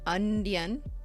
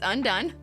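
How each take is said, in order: First: The word ends with a 'dian' sound. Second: The word ends with a 'done' sound. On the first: The speaker calls it wrong. "not Undian" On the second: The speaker calls it right. "No, it's Undone"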